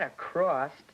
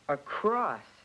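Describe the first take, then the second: First: A T sound is added at the end. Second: No T sound is added at the end. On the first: The speaker calls it wrong. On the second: The speaker calls it right.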